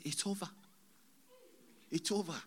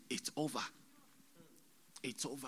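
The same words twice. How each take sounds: First: Higher-pitched pronouncement of doom; retold voice from the vision. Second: Subdued, quiet pronouncement; retold voice from the vision. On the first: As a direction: announce it high, without raising volume. Voice heard in the vision. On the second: Same words retold more softly.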